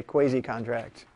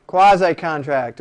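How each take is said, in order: First: Quasi-contract said KWAY-zee contract; quasi-contract with kway-ZEE vowels; friend's pronunciation. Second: Quasi-contract said KWAH-zye contract; Quasi-contract with kwah-ZYE vowels; standard pronunciation. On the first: Retold or imitated. Professor imitating a law-school friend saying quasi-contract. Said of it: "as my friend in law school used to say". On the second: Shown as a demonstration. Professor giving the usual pronunciation of Quasi-contract. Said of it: "or as my friend in law school used to say".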